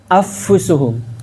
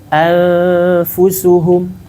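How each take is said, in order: First: The n merges completely into the f. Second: The n is half-hidden with lingering nasal sound. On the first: "Kalau idgham" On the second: "Maka diambil jalan tengah dari keduanya"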